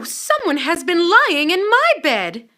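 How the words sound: It is said in a middle-sized voice.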